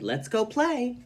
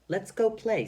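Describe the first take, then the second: First: It is read in a happy voice. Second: It is read in a plain, neutral voice.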